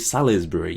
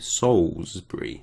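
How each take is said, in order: First: The first syllable does not sound like 'souls'. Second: The first syllable sounds like 'souls'. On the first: The speaker calls it wrong. "You don't go Salisbury" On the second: The speaker calls it right. "Souls. ... you go Salisbury"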